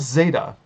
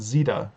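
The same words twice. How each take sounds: First: It is said in the speaker's own, non-English accent. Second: It is said the way people say it in England.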